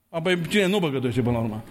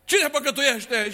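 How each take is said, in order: First: Said in the usual way. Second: Slow rhetorical question. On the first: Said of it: "asides to congregation". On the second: Real, not acted. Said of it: "repeated rhetorical question".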